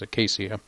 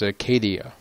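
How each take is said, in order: First: The word ends with a 'sha' sound. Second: The word ends with a 'dee-uh' sound. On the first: The speaker calls it right. "so it's acacia" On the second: The speaker calls it wrong. "I pronounced a acacia, yeah, acacia trees as acadia on accident"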